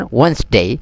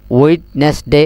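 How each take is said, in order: First: ওয়েডনেসডে as two syllables, "wens-dey"; corrected WEDNESDAY. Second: ওয়েডনেসডে in three parts, "wed-nes-dey"; mistaken WEDNESDAY. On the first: Teacher correcting students, ওয়েডনেসডে shortened to "wens-dey". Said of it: "এভাবে ন হইবেন ওয়েডনেসডে". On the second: Teacher showing students the mistake, ওয়েডনেসডে spelled-out "wed-nes-dey". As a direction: sound the d and middle syllable of ওয়েডনেসডে. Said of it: "এভাবে ন হইবেন". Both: Shown as a demonstration.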